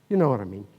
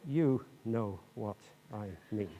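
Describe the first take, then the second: First: It is said fast, in one breath. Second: It is said slowly, not run together.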